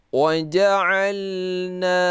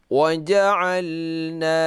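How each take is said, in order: No difference in how they are said.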